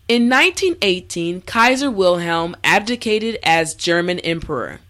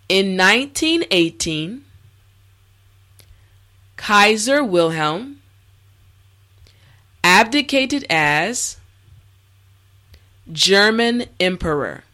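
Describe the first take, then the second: First: The sentence is said at normal speed. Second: The sentence is said slowly. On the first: "this time we will go at a more natural pace" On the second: "this time repeat after me"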